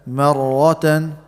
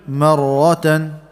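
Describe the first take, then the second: Both takes have the same delivery.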